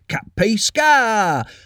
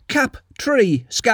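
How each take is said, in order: First: The 't' sound is dropped, sounding like 'cappy'. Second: The 't' sound between syllables is clearly pronounced. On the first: The speaker calls it wrong. "or else it just comes out as cappy" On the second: The speaker calls it right. "I have to say it like that"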